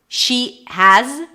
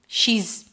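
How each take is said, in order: First: Has is said in full with its vowel. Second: Has is reduced to a single z sound.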